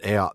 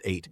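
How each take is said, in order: First: The word does not sound like 'eight'. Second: The word sounds just like 'eight'. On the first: The speaker calls it wrong. "I think we pronounced it Eyot before" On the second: The speaker calls it right. "It's actually just pronounced like eight"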